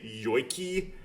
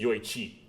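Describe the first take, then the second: First: The middle consonant is a hard k sound. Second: The middle consonant is a ch sound. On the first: The speaker calls it wrong. "I tend to pronounce it like a K" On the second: The speaker calls it right. "The correct pronunciation is actually Yoichi"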